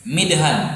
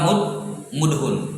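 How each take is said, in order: First: The first syllable has the vowel i. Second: The first syllable has the vowel u. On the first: This is the form the rule predicts. "Kalau kita ikuti kaidah seharusnya apa?" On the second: This is the form actually heard from Arabs.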